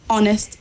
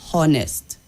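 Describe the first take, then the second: First: The word starts with a vowel, no h sound. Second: The word starts with an audible h sound. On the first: The speaker calls it right. "you don't say the H sound" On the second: The speaker calls it wrong. "not honest"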